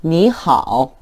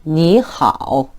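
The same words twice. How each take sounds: First: 니하오 read with both third tones, 니 rising; full tones. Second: 니하오 drawn out very slowly, 니 rising then 하오 dipping; slow tone demo. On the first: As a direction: model 니하오 tone by tone. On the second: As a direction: stretch every syllable of 니하오. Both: Shown as a demonstration. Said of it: "한번 읽어보시죠".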